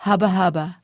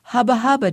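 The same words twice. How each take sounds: First: Said in the usual way. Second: A lightly raised, higher sputtering shout of hubba, hubba. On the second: A narrator's reading. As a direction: fling out the first hubba, hubba a bit higher and louder. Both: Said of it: "he shouted".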